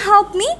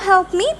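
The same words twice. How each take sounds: Both takes have the same delivery.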